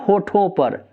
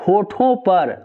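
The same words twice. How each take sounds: The two takes are said the same way.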